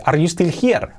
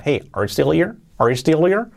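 First: HERE as "jier" with H, every word separate; higher, word-by-word "still hier"; learner's careful pronunciation. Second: HERE without H, "stillir", rising; native-style linking. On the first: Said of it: "os va a entender si decís". (here con H marcada, palabra por palabra) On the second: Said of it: "cuando un nativo te diga". (como un nativo, here sin H y enlazado) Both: Shown as a demonstration.

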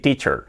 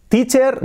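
First: English-accented "teacher", lower and relaxed; native English pronunciation. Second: "teacher" high, with a tapped Spanish r; Spanish-accented "teacher", pitched up; wrong Spanish-style pronunciation. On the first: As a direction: say "teacher" as "TEE-chuh(r)", falling. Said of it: "se puede decir". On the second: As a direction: say "teacher" as "TEE-cher" with Spanish sounds. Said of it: "no, se puede decir". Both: Shown as a demonstration.

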